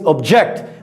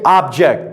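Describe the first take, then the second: First: The stress is on the second syllable. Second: The stress is on the first syllable. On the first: It is the act of disagreeing. "as a verb, it means to disagree. It means object" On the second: It is a thing. "the noun. We pronounce it, like you guys say, object"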